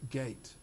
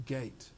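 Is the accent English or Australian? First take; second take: English; English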